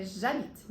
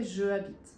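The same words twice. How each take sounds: First: "j'habite" run together, the j straight into the a; elided pronunciation. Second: "je habite" with the e of je kept before the a; unelided pronunciation. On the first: Teacher showing students the correct form, elided pronunciation. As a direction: say "j'habite" joined, with no e after the j. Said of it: "então fica". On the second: Teacher showing students the wrong form, unelided pronunciation. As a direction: say "je habite" as separate words, without elision. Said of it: "não fica". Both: Shown as a demonstration.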